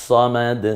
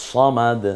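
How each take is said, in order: Both takes have the same delivery.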